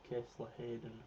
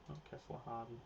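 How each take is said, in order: First: The surname is said as Hayden. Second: The surname is said as Harden. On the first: The speaker calls it right. "Kessler Hayden, not Kessler Harden" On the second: The speaker calls it wrong.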